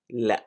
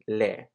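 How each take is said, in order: First: The vowel is cut off by a sudden catch. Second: The vowel is long and fades out smoothly. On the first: This is the slang way to say no. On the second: This is the formal way to say no.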